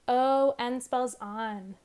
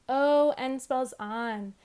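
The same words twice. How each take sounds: No difference in how they are said.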